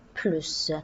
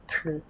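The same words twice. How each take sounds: First: The word ends in an S sound. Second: The final S is silent. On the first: The meaning is positive: more. "normalement on va prononcer le S" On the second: The meaning is negative: no more. "on ne va pas prononcer le S"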